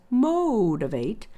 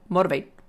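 First: The oh vowel is long and relaxed. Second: The oh vowel is short and tense. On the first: The speaker calls it right. "it's focus, motivate" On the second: The speaker calls it wrong. "That long oh isn't motivate"

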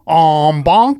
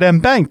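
First: It is said in Morty's general accent. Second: It is said with a New York accent.

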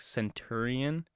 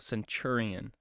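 First: The middle syllable is said with a plain 't'. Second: The middle syllable is said with a 'ch' sound. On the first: The speaker calls it wrong. "it kind of looks like centurion" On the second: The speaker calls it right. "but it's chur. So centurion"

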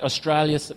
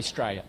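First: The word is said in full, nothing dropped. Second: The word is clipped, with sounds dropped. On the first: "instead of saying Australia" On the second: "we say Australia"

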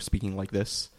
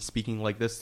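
First: The voice is lower and flatter. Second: The voice is higher and more varied.

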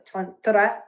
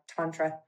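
First: It is said with an Indian Sanskrit pronunciation. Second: It is said with a Texan twang. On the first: "Tantra in Sanskrit in India is Tantra" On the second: "I put a little Texas twang on it"

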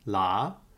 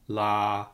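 First: The pitch starts mid and rises. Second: The pitch stays mid and level. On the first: "a mid rising tone" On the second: "a mid flat tone"

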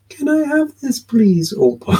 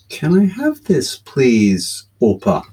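First: It is said in a small child's voice. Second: It is said in his normal adult voice.

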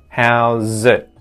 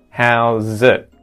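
First: The final T is stopped with the tongue tip. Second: The same.

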